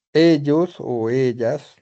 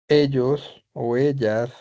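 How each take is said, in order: Both takes have the same delivery.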